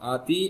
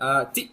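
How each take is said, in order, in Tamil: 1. உயிர் நீளமா இழுத்து சொல்லணும். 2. உயிர் குறுகியா சொல்லணும். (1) "இழுத்து சொல்லக்கூடாது" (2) "ஆத்தி அப்படின்னு தான் நான் சொல்லுவேன்"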